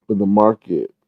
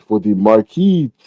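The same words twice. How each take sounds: First: Said in the usual way. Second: "market" drawn out as "mar-keet"; playful mispronunciation. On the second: Pretend. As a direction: say "market" slowly with a long "ee" ending. Repeats it, then says it normally.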